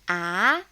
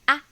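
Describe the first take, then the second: First: The syllable is said in the second tone. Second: The syllable is said in the neutral tone. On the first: "Doubting tone" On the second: "Neutral tone, the easiest"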